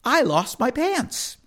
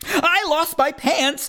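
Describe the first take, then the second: First: Said in the usual way. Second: Alarmed. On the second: Acted. Boy who lost his pants, alarmed and higher. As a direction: cry it out like a panicked kid. Refrain said again.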